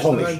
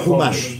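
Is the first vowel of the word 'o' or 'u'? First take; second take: o; u. First: The first vowel is an 'o' sound. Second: The first vowel is a 'u' sound. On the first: The speaker calls it right. "חמישית בעברית זה חומש" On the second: The speaker calls it wrong. "ולא חומש"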